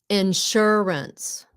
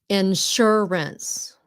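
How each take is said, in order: First: The word ends with a clear s sound. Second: The same.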